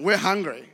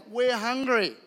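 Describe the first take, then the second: First: A hint of a whiny plea; mock complaining hungry; whiny hungry crowd. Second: Lightly voiced hungry crowd; mock whine of the crowd; hungry crowd complaining. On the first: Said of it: "came to me going". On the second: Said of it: "thousands of people are like".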